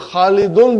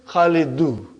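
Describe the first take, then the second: First: The name ends with an added n sound. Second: The name ends on a vowel without n. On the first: "Khalidun became" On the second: "became Khalidu"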